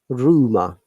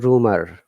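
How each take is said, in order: First: The final R is silent, British style. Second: The final R is sounded, American style. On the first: "the R is silent at the end? Rumor in British English" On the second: "in Americans, we'll say rumor. R should be there"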